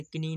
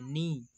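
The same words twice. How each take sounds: First: "कनी" as ki-nee, K clearly heard; wrong sounded K. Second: "नी" as nee, no K at all; silent K. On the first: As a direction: put a K before the N in "कनी". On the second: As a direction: begin "नी" directly on the N sound. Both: Shown as a demonstration. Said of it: "इसे कनी नहीं पढ़ते हैं".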